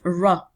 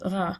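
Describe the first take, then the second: First: The R is pronounced like an English R. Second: The R is pronounced like a French R. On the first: This is the target sound in English. "instead of ra, the R sound in English" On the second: The speaker's first language interferes with it. "with the ra sound in French, because he says ra"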